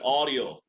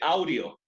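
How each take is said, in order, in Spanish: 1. La primera vocal es una sola O pura. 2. La primera vocal se desliza de A a U. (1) "Yes, very good" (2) "no se dice audio"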